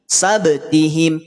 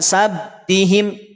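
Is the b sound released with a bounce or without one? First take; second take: bounce; without. First: The b is released with an audible bounce. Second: The b is closed without an audible bounce. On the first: The speaker calls it right. "pastikan ada pantulan" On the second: The speaker calls it wrong. "Jangan tidak dipantulkan. Sabtihim, tidak dibaca demikian"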